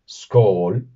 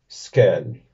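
First: The word is pronounced the Norwegian-Swedish way. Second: The word is pronounced the Danish way. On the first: "en noruego y en sueco, que comparten casi la misma pronunciación" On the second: "y en danés"

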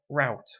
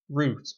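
First: It is said in a North American way. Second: It is said in a non-North American way.

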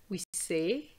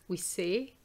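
The two takes are said the same way.

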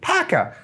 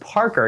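First: The name is said in a Boston accent. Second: The name is said in a plain accent. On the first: Someone else said it this way. "Mason pulls out a Boston accent" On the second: This is how the name is normally said. "no, it's Parker"

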